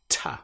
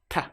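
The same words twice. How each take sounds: First: The T sound is said the British way. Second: The T sound is said the European way, dentally. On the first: "this sound, T, is quite different to the way it is pronounced in other parts of the world" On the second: "In Europe, this sound will often be pronounced like T, T, with the tongue up behind the front teeth"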